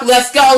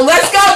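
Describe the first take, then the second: First: Said in the usual way. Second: Hype call. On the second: Real, not acted. Rallying her community at the end, hyped. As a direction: fire up the crowd on go.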